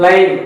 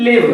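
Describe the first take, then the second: First: "live" with long i, as in five; "live" as in live match, "laiv"; long-i pronunciation. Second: "live" with short i, as in give; short-i pronunciation. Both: Shown as a demonstration. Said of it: "pronunciation is different".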